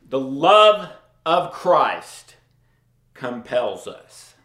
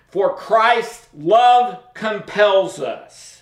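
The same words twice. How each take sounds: First: Slow, low reading. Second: Slow reading. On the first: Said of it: "Paul says it right there". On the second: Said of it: "reading key verse slowly". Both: Shown as a demonstration.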